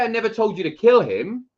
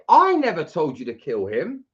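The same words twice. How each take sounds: First: It is said flat, with no word stressed. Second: The word "I" is stressed.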